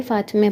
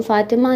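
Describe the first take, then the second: First: फ़ातिमे with final "e"; Persian pronunciation. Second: फ़ातिमा with final "aa"; non-Persian pronunciation. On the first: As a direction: end फ़ातिमे on -me, not -maa. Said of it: "ए की sound आएगी". (फ़ातिमे, आख़िर में "ए") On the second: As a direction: end फ़ातिमा on -maa, the Urdu way. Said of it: "फ़ातिमा नहीं पढ़ेंगे". (फ़ातिमा, आख़िर में "आ") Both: Shown as a demonstration.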